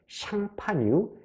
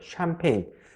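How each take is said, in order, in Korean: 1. 프랑스식 발음으로 'shahn-pah-nyu'라고 해요. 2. 영어식 발음으로 'sham-pain'이라고 해요. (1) "프랑스 동북부 지방에 샹파뉴" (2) "영어식 발음"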